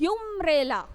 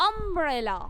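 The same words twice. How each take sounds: First: Umbrella opening on a rounded oo sound; wrong umbrella. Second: Umbrella opening on a short uh sound; right umbrella. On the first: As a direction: say umbrella as oom-brella, the wrong way. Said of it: "It's not". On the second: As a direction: say umbrella as uhm-brella. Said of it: "We pronounce it as". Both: Shown as a demonstration.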